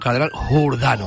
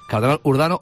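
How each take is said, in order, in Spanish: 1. La palabra empieza con un sonido h aspirada. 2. La palabra empieza directamente con una vocal.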